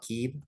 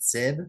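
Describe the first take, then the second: First: The word begins with a k sound. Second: The word begins with an s sound. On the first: The speaker calls it right. "I learned it was actually called, called Keeb" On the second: The speaker calls it wrong. "for like years I was calling it Sib"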